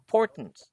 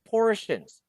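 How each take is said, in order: First: The middle consonant is a t sound. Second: The middle consonant is a sh sound. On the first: The speaker calls it wrong. "it's not portents" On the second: The speaker calls it right. "R T I O is sh, portion"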